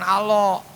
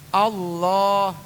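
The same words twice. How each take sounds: First: The L sound is short and single. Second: The L sound is doubled and held. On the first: The speaker calls it wrong. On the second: The speaker calls it right. "Allah itu ditekan"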